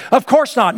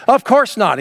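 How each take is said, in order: First: High, loud, forceful refusal of the idea; very emphatic. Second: Said in the usual way. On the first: Retold or imitated. Preacher voicing Paul to the church, emphatic. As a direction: slam the door on the idea. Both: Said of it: "what Paul does is very emphatic".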